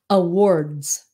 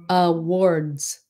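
The two takes are said the same way.

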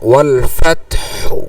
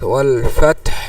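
First: The final u vowel is pronounced after h. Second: The word ends on h with no vowel. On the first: "হায়ের উপরে পেশ আছে" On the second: "এই পেশটার উচ্চারণ আসবে না"

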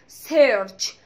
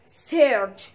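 Both takes have the same delivery.

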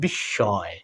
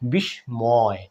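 First: The s is doubled and no m is heard. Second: The m after the s is pronounced. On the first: The speaker calls it right. "Double সয়ে পরিণত হবে বন্ধুরা" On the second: The speaker calls it wrong. "অনেকে বন্ধুরা ভুল করে উচ্চারণ করি বিস্ময়"

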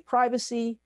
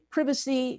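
First: It is said with an American pronunciation. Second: It is said with a British pronunciation. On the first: "we say privacy" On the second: "on one side of the pond, they say privacy"

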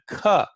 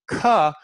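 Both takes have the same delivery.

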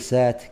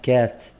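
First: The word begins with an s sound. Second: The word begins with a k sound. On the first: The speaker calls it wrong. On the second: The speaker calls it right.

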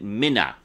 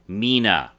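First: The first vowel is short, like 'Minna'. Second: The first vowel is long, like 'Meena'. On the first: The speaker calls it wrong. "But all but one character pronounced it Mina" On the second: The speaker calls it right. "It's M-I-N-A, one N, which means it's pronounced Mina"

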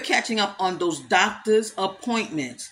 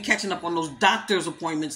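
First: The phrase is spoken at a slower pace. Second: The phrase is spoken at a fast pace. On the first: "Let me say it slower" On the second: "Did I say that fast enough?"

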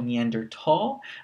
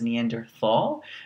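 First: The word is said with German-style sounds. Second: The word is said with English-style sounds. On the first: The speaker calls it right. "This is actually a German word. ... So it's actually Homo Neanderthal" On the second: The speaker calls it wrong. "you're actually not supposed to say this as Neanderthal"

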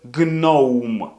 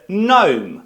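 First: A g sound is heard before the n. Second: The word begins directly with an n sound. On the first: The speaker calls it wrong. "Ми не будемо починати, наприклад, це слово з GNOME" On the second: The speaker calls it right. "Ні, буде GNOME. Навіть натяку немає"

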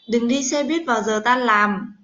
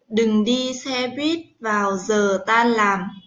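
First: The sentence is spoken at a quick pace. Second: The sentence is spoken at a slow, careful pace.

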